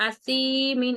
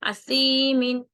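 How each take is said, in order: First: اسی مین with a hissing, whistled س sound; wrong whistling s. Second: اسی مین with a soft ث and no whistle; soft tha. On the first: Teacher demonstrates the mistake to avoid, hissing s. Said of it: "اس کو اسی مین نہیں پڑھنا". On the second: Teacher gives the correct soft ث after the wrong one. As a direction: say اسی مین gently, tongue soft, no hiss. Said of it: "سیٹی کی آواز نہیں آنی چاہیے". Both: Shown as a demonstration.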